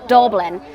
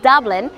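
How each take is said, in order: First: It is said in a local Dublin accent. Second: It is said in a standard, neutral accent. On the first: "he says Dublin" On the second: "instead of saying Dublin"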